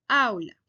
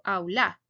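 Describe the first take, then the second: First: "aula" with a strong, stressed opening A, AU-la; correct stress. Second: "aula" said the wrong way, with the weight off the first A, as "aúla"; deliberately wrong "aula", stress moved off the opening A. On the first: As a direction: stress the first syllable of "aula" clearly. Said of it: "sino aula". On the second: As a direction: show the mistake: "aula" leaning on the u. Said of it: "Yo no digo aula". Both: Shown as a demonstration.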